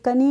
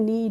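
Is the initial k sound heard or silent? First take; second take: heard; silent. First: The word starts with a k sound. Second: The word starts with an n sound. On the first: The speaker calls it wrong. "कनी नहीं पढ़ते हैं" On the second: The speaker calls it right. "इसको पढ़ते हैं नी"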